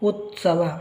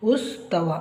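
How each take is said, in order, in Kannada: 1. t ಧ್ವನಿ s ಗಿಂತ ಮೊದಲು ಬರುತ್ತದೆ. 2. s ಧ್ವನಿ t ಗಿಂತ ಮೊದಲು ಬರುತ್ತದೆ. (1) "ಸರಿಯಾದ ಉಚ್ಚಾರ" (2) "ಆದರೆ ಇದು ತಪ್ಪು"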